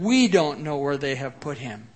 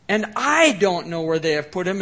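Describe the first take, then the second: First: "we" leaned on, lower; stress on we. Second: "I" rising and leaned on, louder; stress on I. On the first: Preacher quoting verse two, stress on "we". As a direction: push "we" as the shared version. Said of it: "instead of". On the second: Preacher contrasting Mary's words, stress on "I". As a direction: make "I" the personal word. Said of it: "she says it in a more personal way". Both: Shown as a demonstration.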